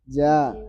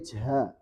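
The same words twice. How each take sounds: First: The consonant is said without a puff of air. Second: The consonant is said with a puff of air. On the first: The speaker calls it right. "Jangan pakai angin" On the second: The speaker calls it wrong. "Enggak boleh ja"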